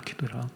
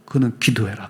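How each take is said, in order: First: Softer echo. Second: Said in the usual way. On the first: Real, not acted. Preacher echoing his own command, much softer. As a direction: repeat it much softer, almost to yourself. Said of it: "repeated, trailing". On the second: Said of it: "repeated, first take".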